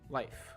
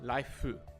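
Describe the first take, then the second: First: The word ends crisply on an f sound. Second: The word ends with an added u vowel. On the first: The speaker calls it right. "You just want the f" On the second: The speaker calls it wrong. "you don't want the hu sound at the end"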